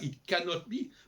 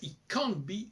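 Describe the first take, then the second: First: The full form is said with an oral vowel. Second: The O drops and 'can' has a nasal vowel. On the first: "c'est pas it cannot be" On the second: "le O qui disparaît, et le en, c'est le en à la française"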